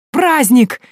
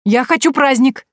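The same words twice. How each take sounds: First: High, loud happy squeal; a boy thrilled by a party; joyful squeal. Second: Put-on high, loud eager boy; excited boy. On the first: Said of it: "радостно взвизгнул Прошка". (радостный визг мальчишки) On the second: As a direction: beg for the party gleefully. Boy excited about party. (восторженный мальчишка, громко) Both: A narrator's reading.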